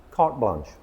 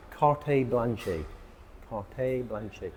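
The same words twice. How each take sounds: First: "carte blanche" with silent final E's, kart blonsh; proper "carte blanche", ending on the sh sound; correct pronunciation. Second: "Carte blanche" with the final E's sounded, kart-ay blan-shay; wrong pronunciation. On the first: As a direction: say "carte blanche" the French way, no end vowels. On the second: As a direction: say "Carte blanche" wrongly, voicing each end E. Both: Shown as a demonstration. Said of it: "We don't pronounce the E's at the ends".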